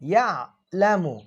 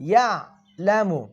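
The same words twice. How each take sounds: No difference in how they are said.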